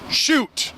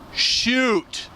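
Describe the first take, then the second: First: The word is said loosely and quickly. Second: The word is said slowly with careful enunciation. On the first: The speaker calls it wrong. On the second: The speaker calls it right.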